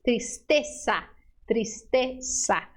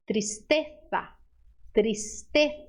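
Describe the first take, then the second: First: Tristeza with the z said as a plain s; slow tristeza, z spoken as s; tristeza with an S sound. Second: Tristeza with the z said as th, tongue between teeth; Castilian tristeza. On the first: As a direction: tristeza pronounced with s, not th. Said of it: "faça um S". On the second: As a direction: tristeza pronounced tristetha, Spain style. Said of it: "língua entre os dentes". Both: Shown as a demonstration.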